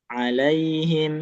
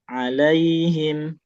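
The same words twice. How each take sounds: Both takes have the same delivery.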